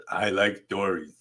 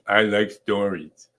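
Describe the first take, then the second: First: Light, half-hearted cartoon boy voice; a playful sketch of a cartoon kid; Bart Simpson impression. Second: Slower, drawn-out light cartoon kid voice; Bart Simpson, again slower. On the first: Teacher tries a Bart Simpson voice on the class. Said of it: "That was my Simpson, um, imitation". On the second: Teacher retries the Bart voice for Molly, slower. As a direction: stretch it out like a lazy cartoon boy. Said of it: "Molly, was that a good Simpson imitation?".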